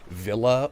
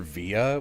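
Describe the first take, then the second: First: The L sound is clearly pronounced. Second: The L sound is dropped entirely. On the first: "pronounce the word V I L L A as Villa" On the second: "or Via"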